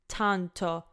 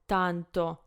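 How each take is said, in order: First: The T is said with a strong air puff. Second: The T is said with almost no air puff. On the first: The speaker calls it wrong. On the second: The speaker calls it right.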